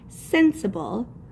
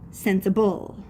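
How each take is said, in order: First: The stress is on the first syllable. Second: The stress is on the last syllable. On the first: "more of my sound is going to be put on that first syllable" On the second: "if the accent was on the end"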